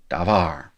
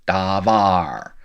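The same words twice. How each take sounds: First: Said in the usual way. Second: Davar with both a vowels held long. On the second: Shown as a demonstration. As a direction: stretch out each vowel in davar. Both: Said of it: "A long vowel".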